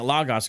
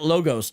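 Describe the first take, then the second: First: It is said the classroom Greek way. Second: It is said the everyday English way. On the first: This is how it is taught in Greek class. The speaker calls it wrong. "that's how you're taught to say it in Greek class" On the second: This is how the company says its name. The speaker calls it right. "They say it Logos"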